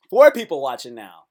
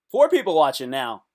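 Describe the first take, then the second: First: Louder excited count. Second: Excited count. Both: Real, not acted. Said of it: "excited about viewers".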